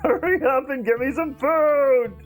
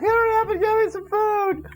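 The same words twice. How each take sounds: First: It is said in an uncertain, different voice. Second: It is said in the character's put-on voice.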